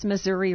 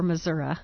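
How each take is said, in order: First: "Missouri" ending in a clear ee sound. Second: "Missouri" ending in uh instead of ee. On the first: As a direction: say "Missouri" as muh-ZUR-ee. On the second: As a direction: say "Missouri" as muh-ZUR-uh. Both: Shown as a demonstration. Asks which of two pronunciations.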